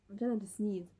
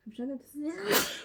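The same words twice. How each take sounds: First: Said in the usual way. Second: Fighting off a sneeze; holding back a sneeze. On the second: Real, not acted. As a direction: talk through a sneeze coming on.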